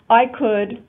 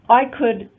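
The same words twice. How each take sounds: No difference in how they are said.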